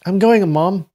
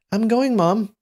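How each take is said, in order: First: Put-on high young man's voice, a bit less childish; high, older youth. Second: Put-on very high, childlike boy's voice; high young voice. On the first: Young man telling his mother he's going, louder high voice. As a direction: call it out louder, high but not a small child. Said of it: "he's not that young". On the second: Young man calling to his mother as he leaves, high voice. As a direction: pitch it way up like a little boy. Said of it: "say in a high voice". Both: A narrator's reading.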